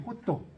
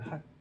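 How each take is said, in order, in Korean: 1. 두 음절로 발음하고, 모음으로 끝나요. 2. 짧은 한 음절로 발음해요. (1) "호또 소스지" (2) "핫을 못 알아들어"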